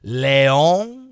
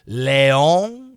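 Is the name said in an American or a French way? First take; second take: French; French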